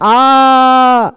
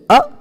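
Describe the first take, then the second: First: The vowel is drawn out for three beats. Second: The vowel is held very briefly. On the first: "उसी को और बढ़ा दिया गया आ, तीन मात्रा तक, वो हो जाएगा प्लुत" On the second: "ये ह्रस्व है"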